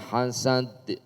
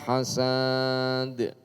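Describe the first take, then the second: First: The last vowel is held short. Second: The last vowel is drawn out long. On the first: The speaker calls it right. "Tetap dibaca pendek" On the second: The speaker calls it wrong. "enggak boleh karena tidak ada alifnya"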